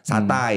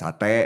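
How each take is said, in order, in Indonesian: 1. Kata ini diakhiri diftong 'ai'. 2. Kata ini diakhiri vokal tunggal 'e'. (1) "jarang ada yang ngomong ... satai" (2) "orang ngomongnya ... sate"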